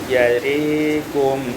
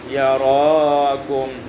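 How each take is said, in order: First: The vowel after r leans toward e. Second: The vowel after r is an open a.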